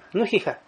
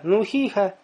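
First: The vowels are cut short. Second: The vowels are held moderately long. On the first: The speaker calls it wrong. "Но ты не скажешь" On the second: The speaker calls it right. "Ты будешь говорить"

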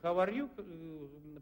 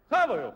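First: Each word is said clearly and separately. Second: The words are run together into one word. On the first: "это how are you" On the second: "они говорят хаваю"

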